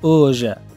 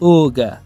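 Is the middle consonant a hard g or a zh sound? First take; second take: zh; g. First: The middle consonant is a zh sound. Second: The middle consonant is a hard g sound. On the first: This is the Kandahar dialect form. "به لهجه قندهار که او را ژ هم میخوانیم" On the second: This is the standard dialect form. "به لهجه رسمی پشتو که همی گ میخوانیم"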